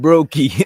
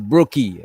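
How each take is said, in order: First: The first syllable sounds like 'broke'. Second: The first syllable sounds like 'brook'. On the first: The speaker calls it wrong. "I pronounced it wrong. I said Brokey. She's not broke" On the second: The speaker calls it right. "It's Brookie"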